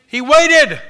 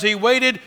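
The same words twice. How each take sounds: First: Waited cried out much higher and louder; shouted emphasis. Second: Said in the usual way. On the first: Shown as a demonstration. Preacher driving home that David waited, shouting waited. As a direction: hit waited with a soaring shout. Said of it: "is because he waited".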